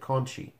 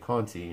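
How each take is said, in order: First: The middle consonant sounds like 'ch'. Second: The middle consonant sounds like 't'. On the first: This is how the announcers say the name. "they pronounced it Conchi" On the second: This is how the name reads from its spelling. "read it and say Conti"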